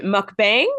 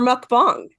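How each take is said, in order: First: "mukbang" with second vowel as in "bang"; Westernized pronunciation. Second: "mukbang" with second vowel as in "father"; Korean-style pronunciation. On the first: Host asks director which is right, Westernized "mukbang" as in "bang". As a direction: say "mukbang" rhyming its end with "hang". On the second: Host asks director which is right, Korean-style "mukbang" as "bahng". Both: Shown as a demonstration. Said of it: "that's the hard-hitting question first".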